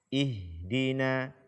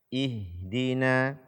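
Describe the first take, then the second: No difference in how they are said.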